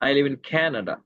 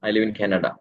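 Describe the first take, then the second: First: The word 'Canada' carries strong extra stress. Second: The sentence is said flatly, with no word stressed. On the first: "கனடான்ற விஷயத்த நம்ம stress பண்ணுவேன்" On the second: "சும்மா local English சொல்லணும்"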